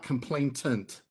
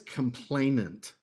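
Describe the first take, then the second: First: The word has an extra t sound. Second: The word has only one t sound. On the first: The speaker calls it wrong. "It's not complainant. There's no two T's in it" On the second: The speaker calls it right. "the word is complainant"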